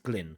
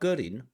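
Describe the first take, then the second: First: The name keeps its English pronunciation. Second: The name is adapted to Chinese pronunciation. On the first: Chinese listeners would not understand it. The speaker calls it wrong. "I can't say 我叫 Glyn because nobody understands Glyn" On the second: Chinese listeners can understand it. The speaker calls it right. "So I have to say 我叫 Gerin"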